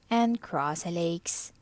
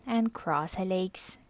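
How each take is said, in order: Both takes have the same delivery.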